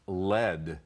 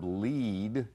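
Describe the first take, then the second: First: It is said the same as 'led'. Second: It is said differently from 'led'. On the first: It names a kind of metal. "If it's a noun meaning a kind of metal, then it's pronounced lead" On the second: It is the verb meaning to guide. "the verb lead"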